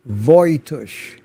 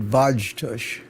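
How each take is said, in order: First: Voitush said with an OY in the first syllable; Voitush, first syllable rhyming with boy; corrected name pronunciation. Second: Vajtush said with a J sound mid-word; old mistaken pronunciation. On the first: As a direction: say Voitush as VOY-tush. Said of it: "Get used to hearing it that way". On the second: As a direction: say Vajtush as VAHJ-tush. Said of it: "I've always said". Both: Shown as a demonstration.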